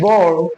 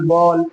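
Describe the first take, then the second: First: The final L is dark and hollow. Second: The final L is light and clear. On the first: The speaker calls it right. "ये dark एल होगा" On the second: The speaker calls it wrong. "ऐसे नहीं"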